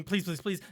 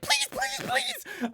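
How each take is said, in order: First: Said in the usual way. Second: Screeched pleas, far higher, in panic; desperate gnome begging. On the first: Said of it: "and as he's screaming". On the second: Acted. Deep gnome begging the fiend for mercy, screeching. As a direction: beg for your life in a shrill squeal. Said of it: "the deep gnome is like".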